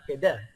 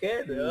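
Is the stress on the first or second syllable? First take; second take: second; first. First: The stress is on the second syllable. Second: The stress is on the first syllable. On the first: The speaker calls it wrong. "ستريسينغ في الدال راه لا لا هذا الشيء راه ماشي مصري" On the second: The speaker calls it right. "ستريسينغ في ال... في الكاف"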